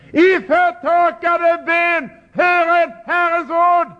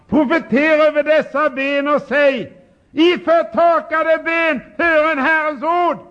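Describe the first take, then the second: First: Much higher, slow, ringing call; calling out loud. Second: Voice of God commanding. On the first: Shown as a demonstration. Preacher shows how to preach loudly to dry bones. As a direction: cry it out to deaf bones. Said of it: "Måste tala högt när ni talar till ben". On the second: Retold or imitated. Preacher voices God commanding the prophet loudly. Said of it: "Då sa han".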